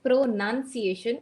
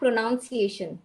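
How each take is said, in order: First: The second syllable sounds like nun. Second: The second syllable sounds like noun. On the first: The speaker calls it right. "It is pronunciation and not pronoun" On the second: The speaker calls it wrong. "not pronunciation"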